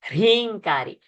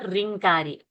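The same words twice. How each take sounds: First: A breathy h sound comes before the r. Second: The r starts with no breathy h sound. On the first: The speaker calls it right. "When her sound you will have to hear" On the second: The speaker calls it wrong. "it's not ringkari"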